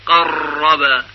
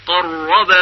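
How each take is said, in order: First: قرب very slow, its doubled r trilled long and hard; wrong demo, قرب with a buzzing trill; overrolled r. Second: قرب with the doubled r held but barely trilled; قرب said at normal pace, no buzzing trill; correct light r. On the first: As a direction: drag the r of قرب into a heavy roll. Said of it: "نباید به این صورت بشه". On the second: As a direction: say قرب cleanly, one light tap on the r. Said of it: "بلکه به صورت صحیح تلفظ بشه". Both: Shown as a demonstration.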